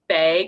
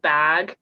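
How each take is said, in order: First: The vowel is said the Montana way. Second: The vowel is said the local way. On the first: "at home, people say bag" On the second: "instead of bag"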